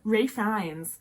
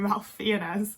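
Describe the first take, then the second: First: The first name is said as Rafe, without an L. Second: The first name is said as Ralph, with an L. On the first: The speaker calls it right. "is how I think people pronounce it" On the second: The speaker calls it wrong. "I want to call him Ralph Fiennes. I know that's not his fucking name"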